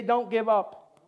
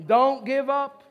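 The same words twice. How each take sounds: First: Said in the usual way. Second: Louder, higher, emphatic rallying cry; like you mean it. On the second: Shown as a demonstration. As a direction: belt it out with full conviction. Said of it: "say it like you mean it".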